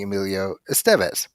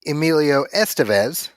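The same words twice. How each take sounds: First: Estevez with the middle syllable stressed, es-TEV-ez; second-syllable stress. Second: Estevez with the front syllable stressed, ES-te-vez; first-syllable stress. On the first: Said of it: "Zachy is saying". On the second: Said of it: "Corey is saying". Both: Shown as a demonstration.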